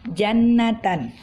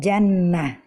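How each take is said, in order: First: The word ends with a 'tan' sound. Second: The word ends with a soft 'h' sound. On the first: "seperti pada kalimat ini" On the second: "bila kita berhenti pada tan yang ta marbutah fathatain ini, maka kita uh, membacanya menjadi"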